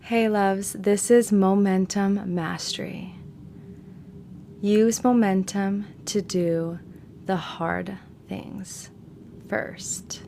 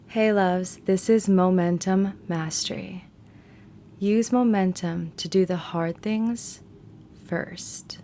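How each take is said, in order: First: It is said slowly. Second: It is said faster.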